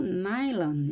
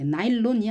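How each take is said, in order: First: 나일론 as English NY-lun, stressed first syllable; English pronunciation. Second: 나일론 with a full Korean "lon" at the end; Korean loanword pronunciation. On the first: Teacher models nylon for learners, English-style 나일론. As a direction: say 나일론 with a weak "lun" ending. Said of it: "이렇게 발음을 하겠습니다". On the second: Teacher shows learners what to avoid, Korean-style 나일론. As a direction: say 나일론 as Korean nail-lon, even syllables. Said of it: "나일론이 아니고". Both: Shown as a demonstration.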